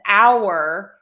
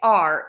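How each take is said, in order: First: The word is stressed and pronounced fully. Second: The word is unstressed and pronounced reduced. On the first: It stresses that the anniversary belongs to them. "if we're stressing the word our, ... you would really pronounce the word our fully" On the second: Ownership of the anniversary is not being stressed. "you would say our because that's unstressed"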